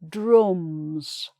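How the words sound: The vowel is darker, with lips pushed forward. "in the northern accent"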